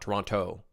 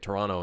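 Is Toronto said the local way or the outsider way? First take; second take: outsider; local. First: The name is said the way outsiders say it. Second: The name is said the way locals say it. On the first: The speaker would not be from the city. The speaker calls it wrong. "and not Toronto" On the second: The speaker is really from the city. The speaker calls it right. "I'm pronouncing it Toronto"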